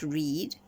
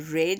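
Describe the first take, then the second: First: It uses the present tense pronunciation. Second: It uses the past tense pronunciation. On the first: The action is happening now or habitually. The speaker calls it wrong. "and not read" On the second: The action already happened. The speaker calls it right. "past tense, so it must be read"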